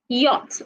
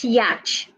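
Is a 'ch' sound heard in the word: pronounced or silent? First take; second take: silent; pronounced. First: No ch sound is pronounced in the middle. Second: A ch sound is pronounced in the middle. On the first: The speaker calls it right. "the C H is silent" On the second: The speaker calls it wrong. "not yacht"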